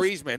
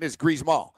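First: The name is said with an English pronunciation. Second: The name is said with a French pronunciation. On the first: The speaker calls it wrong. "Like it's not" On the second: The speaker calls it right. "It's Griezmann, dude"

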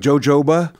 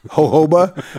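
First: The word begins with a J sound. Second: The word begins without a J sound. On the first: The speaker calls it wrong. "Not jojoba" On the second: The speaker calls it right. "so the J silent"

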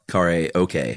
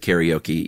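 First: It is said the original, non-anglicized way. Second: It is said the everyday anglicized way. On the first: This is how the word properly sounds. "even though it's karaoke" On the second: This is how people usually say it. "We'll pronounce it karaoke"

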